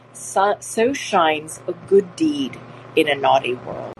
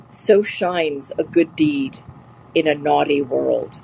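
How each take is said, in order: First: Slow, steady reading of the quote; quote recital. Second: Slow, weighty recitation of a line; quote recital. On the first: Teacher repeating Portia's line for students, slow. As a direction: read it out like Shakespeare. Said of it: "again, Portia". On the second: Teacher reciting Portia's line to the class, slow and weighty. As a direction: savour each word of the quote. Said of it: "the quote was". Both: Shown as a demonstration.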